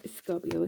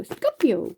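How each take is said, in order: First: Said in the usual way. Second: "Scorpio" as a comic exclamation, starting high and falling; put-on, playful "Scorpio", pitched up then dropping; playful catchphrase delivery. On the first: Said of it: "I always feel like I have to". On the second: Shown as a demonstration. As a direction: punch out "Scorpio" like a comedy catchphrase. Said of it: "say it like that".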